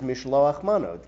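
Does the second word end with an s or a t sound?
t. The second word ends with a t sound.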